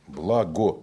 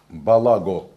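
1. Звуки б и л соединены без гласного. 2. Полный гласный А отделяет б и л.

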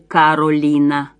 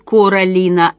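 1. Имя произносится как Caroline. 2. Имя произносится как Coraline. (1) "а не Каролина" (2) "Меня зовут Каролина"

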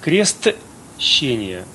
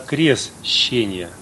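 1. В слове есть звук т перед shch. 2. В слове нет звука т перед shch. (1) "называют не крестщение" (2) "а крестщение. То есть крестщение, буквы «Т» там нет"

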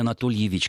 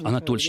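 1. Отчество произносят полностью, каждый слог. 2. Отчество произносят сокращённо, слоги пропускают. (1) "не Анатольевич" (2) "сокращать"

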